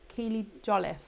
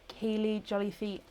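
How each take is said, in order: First: The surname ends without a sounded final vowel. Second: The surname ends with a sounded final vowel. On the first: The speaker calls it right. "it's with silent E" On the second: The speaker calls it wrong. "Almost pronounced right"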